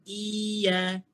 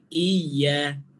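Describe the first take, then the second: First: The vowel is drawn out without pressing. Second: The y sound is pressed and doubled. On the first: The speaker calls it wrong. "Bukan bagi panjang. Tapi tak tekan" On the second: The speaker calls it right. "Kita tekan"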